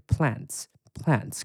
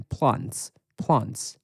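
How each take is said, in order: First: Plants said the American way, short flat a, slow; American plants, drawn out; American pronunciation. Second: Plants said the British way, long broad ah vowel, slow; British plants, drawn out; British pronunciation. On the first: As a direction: say plants like an American, slowly, twice. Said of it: "美国人念植物念". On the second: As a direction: say plants like a Brit, slowly, twice. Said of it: "英国念植物念". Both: Shown as a demonstration.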